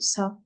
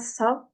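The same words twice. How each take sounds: First: It begins with a plain s sound. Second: It begins with a breathy th-like sound. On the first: The speaker calls it right. "En français, on dit ça. Ça, avec un S" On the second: The speaker calls it wrong. "Le ça, il y a vraiment de l'air qui sort. On dit pas ça en français"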